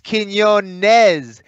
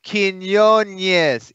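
First: The second N is a plain N. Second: The second N has a 'ny' sound. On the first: The speaker calls it right. "The Ñ is only on the first N" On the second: The speaker calls it wrong. "You said Quinones"

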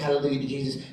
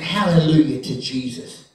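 First: It is said flatly, without feeling. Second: It is said with strong feeling.

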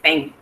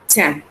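First: The t sound is a Spanish-style t. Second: The t sound is an English-style t. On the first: The speaker calls it wrong. "No es nuestro sonido de la T" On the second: The speaker calls it right. "es el sonido de ellos"

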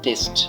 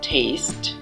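First: It is said with a Bengali-style pronunciation. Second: It is said with an English-style pronunciation. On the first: The speaker calls it wrong. "আমরা সবসময় বলে থাকি টেস্ট" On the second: The speaker calls it right. "সঠিক উচ্চারণ হবে টেস্ট"

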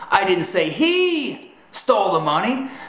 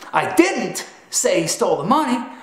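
First: The stress falls on the word 'he'. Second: The stress falls on the word 'didn't'. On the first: Someone other than him stole the money. "that's telling them that perhaps it was her or them that stole the money" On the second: The speaker denies saying it. "simply proclaims that you didn't say it"

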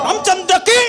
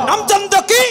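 Both takes have the same delivery.

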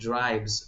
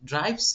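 First: The word ends with a buzzing z sound. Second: The word ends with a hissing s sound. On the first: The speaker calls it right. "জ sound এন্ডিংটা হবে" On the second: The speaker calls it wrong. "But ড্রাইভস না"

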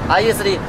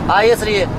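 Both takes have the same delivery.

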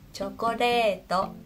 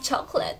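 First: It is pronounced with Japanese katakana sounds. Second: It is pronounced with English sounds. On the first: "bahasa Jepangnya chokoreto" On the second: "bahasa Inggrisnya adalah chocolate"

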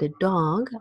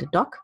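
First: The vowel in dog is long. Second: The vowel in dog is short. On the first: The speaker calls it right. "but a dog. Also wir haben das lange O wegen des G" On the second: The speaker calls it wrong. "not a dog"

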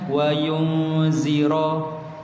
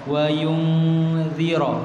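First: The z is a plain buzzing z sound. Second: The z is a heavy sound with the tongue between the teeth. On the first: The speaker calls it wrong. "zira dia jadi zai" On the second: The speaker calls it right. "Kita sebut za"

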